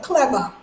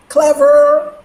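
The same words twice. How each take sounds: First: "clever" with the final r dropped to "ah"; New York pronunciation. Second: "Clever" with a hard, held final r; standard r pronunciation. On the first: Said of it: "As a New Yorker". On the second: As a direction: say "Clever" loud and higher, ending in a full r. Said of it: "that's how we say clever anyway". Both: Shown as a demonstration.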